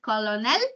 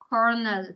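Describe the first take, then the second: First: The word is sounded out as it is spelled. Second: The word sounds like kernel. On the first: The speaker calls it wrong. "You don't pronounce it colonel" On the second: The speaker calls it right. "you pronounce it colonel"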